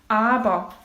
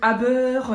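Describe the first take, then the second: First: The ending is said almost like an 'a'. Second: The ending is said with a clear 'er' sound. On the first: The speaker calls it right. "tu prononces presque comme un A à la fin" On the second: The speaker calls it wrong. "Au lieu de dire aber"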